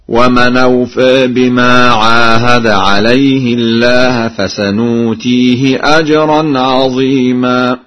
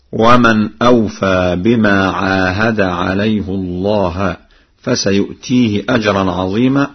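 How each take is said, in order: First: Slow, louder chant, "عليه الله" as alayhi-llaah and "فسنؤتيه" with nun; Warsh recitation. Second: Said in the usual way. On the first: Shown as a demonstration. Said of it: "بالنون هكذا". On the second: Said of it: "فقد قرأ ورش".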